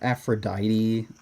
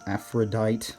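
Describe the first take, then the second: First: The final e is sounded as 'ee'. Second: The final e is not sounded as 'ee'. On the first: "they'd have like like Aphrodite" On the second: "rather than um Aphrodite"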